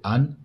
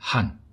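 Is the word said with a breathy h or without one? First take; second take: without h; breathy h. First: It starts straight on the vowel, without breath. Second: It starts with a strong puff of breath. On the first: "ou Anne, comme le prénom de ma meilleure amie" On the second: "il faut souffler fort devant le A pour que ça sonne comme il faut"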